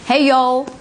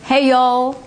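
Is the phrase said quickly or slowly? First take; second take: quickly; quickly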